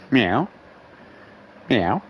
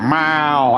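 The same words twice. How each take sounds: First: Short cat meow flicking up at the end; sassy meow. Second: Long, falling imitated yowl; fearful cat meow. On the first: Retold or imitated. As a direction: imitate a cat with a bit of sass. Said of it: "Little bit of sass". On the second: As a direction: drag the meow out like a worried cat. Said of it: "Now it's just fucking meow".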